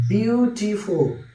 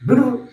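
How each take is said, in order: First: beautiful slowly, split into three beats; বিউ-টি-ফুল, stretching out each syllable. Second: beautiful rattled off in one quick burst; run together fast. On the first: Teacher showing students the syllables in beautiful, broken up slowly. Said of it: "beautiful তিনবার আমাকে থামতে হচ্ছে". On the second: Teacher showing how fast beautiful can run, said in a rush. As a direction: say beautiful high and hurried, no breaks. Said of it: "কত রানিংয়ে বলতে পারি আমরা". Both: Shown as a demonstration.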